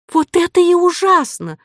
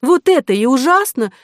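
First: Very high-pitched indignant cry; outraged heroine's high exclamation. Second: High, loud, indignant complaint; wronged heroine's heated exclamation; indignant cry. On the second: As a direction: press the protest in a raised voice. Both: A narrator's reading. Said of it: "крикнула Ариадна".

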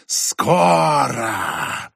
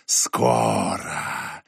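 First: Whistling whisper, rising cry. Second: Very low, slow drawn-out hiss; whistling whisper, low. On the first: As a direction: cry it out in a hissing voice. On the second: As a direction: drag it out deep and eerie. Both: Acted. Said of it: "свистящий женский шёпот".

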